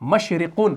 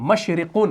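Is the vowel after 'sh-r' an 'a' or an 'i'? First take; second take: i; i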